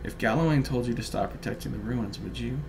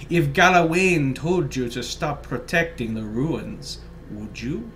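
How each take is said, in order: First: It is read in the speaker's normal voice. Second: It is read in a put-on character voice. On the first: "I forgot to read it in my little voice" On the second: "my little voice"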